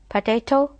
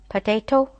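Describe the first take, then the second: No difference in how they are said.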